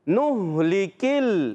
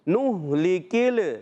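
First: The L is held still without an echo. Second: The L is moved with an echoing bounce. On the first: The speaker calls it right. "लाम को हिलाएंगे नहीं... तो कलकला नहीं करेंगे" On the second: The speaker calls it wrong. "बास बच्चे बड़े हिलाते हैं, पढ़ते हैं नुहलिकिल, किल नहीं करना, ये गलत है"

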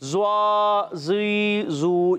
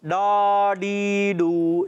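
First: The syllables begin with a z sound. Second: The syllables begin with a retroflex d sound. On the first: "بعض بچے پڑھتے ہیں زواد ... یہ غلط" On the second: "نہ ڈال پڑھنا ... یہ بھی غلط"

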